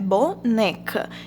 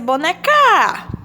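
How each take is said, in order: First: The stress is on the middle syllable, ne. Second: The stress is on the last syllable, ca. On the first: The speaker calls it right. "é boneca. Então, a sílaba tônica é o né" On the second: The speaker calls it wrong. "Se fosse o K, ia ser boneca"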